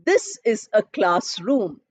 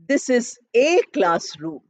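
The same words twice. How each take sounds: First: The article 'a' is a short, weak 'uh' sound. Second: The article 'a' is a full 'ay' sound. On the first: The speaker calls it right. "suppose I say" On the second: The speaker calls it wrong. "Many people say, ... because we learned alphabet A"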